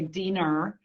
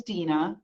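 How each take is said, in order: First: "Diener" said as DEE-ner with an r ending; East Coast Diener. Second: Said in the usual way. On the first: Retold or imitated. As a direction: give "Diener" an r on the end, Rhode Island style. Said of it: "they would always say Diener". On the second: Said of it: "but they would always say Diener".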